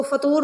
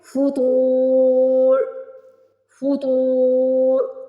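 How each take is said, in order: First: فطور said quickly as in speech; the wrong way, plain speech; فطور with a short plain to; spoken, unstretched. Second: فطور with a heavy to stretched long, very slow; slow tajweed recitation. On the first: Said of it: "اس کو فطور کر کے نہیں پڑھنا". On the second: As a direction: draw out the to of فطور. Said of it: "پہلے توا کو کھینچ لیں گے". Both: Shown as a demonstration.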